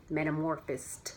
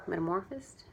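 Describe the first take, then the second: First: Said in the usual way. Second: "Metamorphosed?" with a rising, doubtful tune; unsure rising question. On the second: Real, not acted. Second-guessing her word choice, rising question. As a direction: ask yourself if "Metamorphosed?" is even the word.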